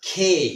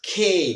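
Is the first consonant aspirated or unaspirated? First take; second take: aspirated; aspirated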